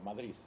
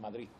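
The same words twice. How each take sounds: First: The word ends with a th sound. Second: The word ends with a t sound. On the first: This is how many people from Madrid say it. "Con una Z" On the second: This is how people in Catalonia say it. "con una T"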